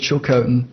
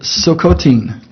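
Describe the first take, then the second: First: The word begins with a ch sound. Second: The word begins with an s-like sound. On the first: This is how outsiders say it. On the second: This is how the nation itself says it. "They pronounce it Silcotin"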